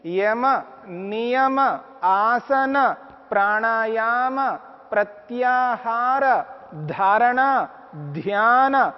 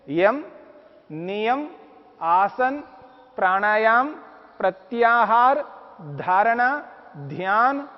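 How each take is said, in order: First: The words are pronounced in Sanskrit style. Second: The words are pronounced in everyday Hindi style. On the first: "Sanskrit में" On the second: "Hindi में"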